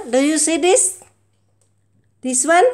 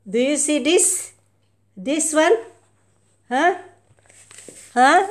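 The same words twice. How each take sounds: First: Even louder taunting questions; louder teasing. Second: Loud taunting questions; loud teasing. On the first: Owner teasing her cat even louder. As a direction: push the teasing harder. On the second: Owner loudly teasing her cat with something. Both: Real, not acted.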